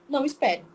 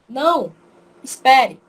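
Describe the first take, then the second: First: There is no pause between the words. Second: There is a pause after the first word. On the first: The person is told not to wait. "se eu não colocar a vírgula" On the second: The person is told to wait. "Veja uma diferença na hora que eu for ler"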